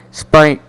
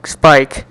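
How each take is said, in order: Both takes have the same delivery.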